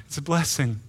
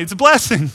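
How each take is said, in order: First: Said in the usual way. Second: It's a blessing punched out louder; firm louder claim; emphatic. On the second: Shown as a demonstration. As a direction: declare "blessing" with a push. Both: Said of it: "It's a blessing most of the time".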